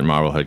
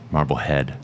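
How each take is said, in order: First: The name is said in a plain, unaffected way. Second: The name is said in a posh, snooty way. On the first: The speaker calls it right. "I'm glad that you pronounce it" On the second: The speaker calls it wrong. "only snooty people pronounce it"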